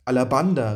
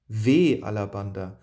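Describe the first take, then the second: First: Louder call of the name Alabanda, falling. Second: Faltering cry. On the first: Hyperion calling after the ship, louder desperate cry. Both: A narrator's reading. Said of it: "rief ich".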